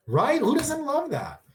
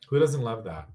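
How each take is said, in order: First: Much higher, drawn-out delighted question; gushing. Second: Said in the usual way. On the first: Real, not acted. Streamer gushing to chat, high and delighted. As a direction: swoon over it.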